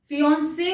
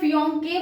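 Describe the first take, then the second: First: The middle consonant is an s sound. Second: The middle consonant is a k sound. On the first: The speaker calls it right. "फियोन से बोल रही हूं ना। तो ऑलरेडी इसका साउंड स ही है" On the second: The speaker calls it wrong. "यहां क्या मैं फियोन के बोल रही हूं क्या?"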